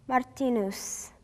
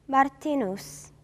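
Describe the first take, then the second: Both takes have the same delivery.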